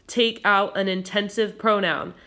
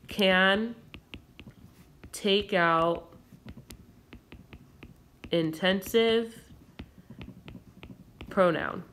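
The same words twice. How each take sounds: First: Said in the usual way. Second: Can take out intensive pronoun, long pauses between words; slow and spaced, like dictating notes. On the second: Shown as a demonstration. Teacher reads the side note to students, slow and spaced. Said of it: "over here on the side".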